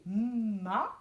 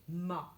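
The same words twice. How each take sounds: First: MA with a long hummed M leading into the A; sounded out. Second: Said in the usual way. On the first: Shown as a demonstration. Teacher decoding for the class, MA sounded out slowly. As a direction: stretch the M of MA, then open the vowel. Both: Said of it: "ça fait ma".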